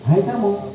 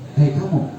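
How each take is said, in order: First: It is said with a menacing, expressive voice. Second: It is said flatly, with no vocal expression. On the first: "Kita masukkan vokalnya. ... Serem" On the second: "kita menggunakan verbal"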